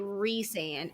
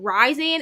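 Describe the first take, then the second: First: The first syllable sounds like 'Reese'. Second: The first syllable sounds like 'Rise'. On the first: The speaker calls it right. "when they shorten it R Y or R H Y S, it's it's pronounced Reese" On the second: The speaker calls it wrong. "and then it'd be Rise. Like that's a stupid thing"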